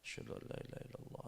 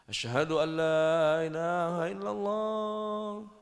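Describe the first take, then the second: First: It is said in a quiet, soft voice. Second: It is said in a loud, raised voice. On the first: "Mengucapkan dua kalimat syahadat dengan suara pelan" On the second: "baru asyhadu an la ilaha illallah dengan lantang"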